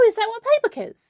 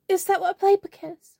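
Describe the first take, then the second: First: The question is asked in a confident tone. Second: The question is asked in a shy tone. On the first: "No, I sound confident" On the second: "I need to sound shy"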